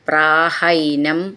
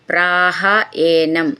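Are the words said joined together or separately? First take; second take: joined; separately. First: The two words are merged into one. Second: The two words are said separately, unlinked.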